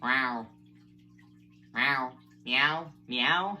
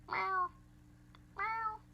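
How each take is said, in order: First: A fuller meow, no squeak; present-day meow. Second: Tiny, very high meow; high-pitched meow. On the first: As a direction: meow at ordinary speaking pitch. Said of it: "And this is now". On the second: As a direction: squeak out a short meow. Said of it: "I can do a high-pitched meow". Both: Shown as a demonstration.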